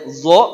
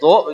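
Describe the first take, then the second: First: The syllable begins with a z sound. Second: The syllable begins with a d sound. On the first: "ada yang zo begini" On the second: "ada yang do begini"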